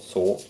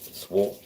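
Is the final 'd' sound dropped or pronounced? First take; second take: pronounced; dropped. First: The final d sound is pronounced. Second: The final d sound is dropped. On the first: "another word that ends with R D" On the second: "she doesn't pronounce it"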